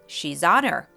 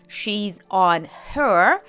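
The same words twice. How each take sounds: First: The words run smoothly together. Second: Each word is said separately and fully. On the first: The speaker calls it right. "a fluid" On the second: The speaker calls it wrong. "a robotic"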